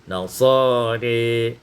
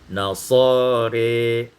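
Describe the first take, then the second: Both takes have the same delivery.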